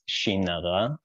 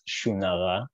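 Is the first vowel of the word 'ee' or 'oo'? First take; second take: ee; oo. First: The first vowel is an ee sound. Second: The first vowel is an oo sound. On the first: It is a bad sign. "in a place where they say the word for cat, shinara" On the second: It is a good sign. "in a land where they pronounce the word for cat, shunara"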